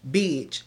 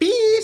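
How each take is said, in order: First: The word sounds tough and threatening. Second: The word sounds excited and eager. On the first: The speaker is ready for a fight. "So now I'm like, what's up? ... you want exactly. that smoke?" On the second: There is juicy gossip to share. "so you getting excited because you know it's something good"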